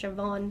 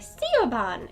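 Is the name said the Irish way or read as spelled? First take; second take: Irish way; as spelled. First: The name is said with its Irish pronunciation. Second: The name is read letter by letter as spelled. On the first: The speaker calls it right. "it's pronounced Siobhan" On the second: The speaker calls it wrong. "people look at Siobhan and think it, you say Siobhan"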